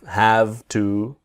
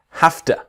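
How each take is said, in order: First: 'Have' ends with a voiced V sound. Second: 'Have' ends with a voiceless F sound. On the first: The speaker calls it wrong. "it's not have" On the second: The speaker calls it right. "the sound is an F"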